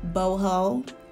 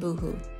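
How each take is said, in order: First: Both syllables have an 'oh' vowel. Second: Both syllables have an 'oo' vowel. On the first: The speaker calls it right. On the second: The speaker calls it wrong.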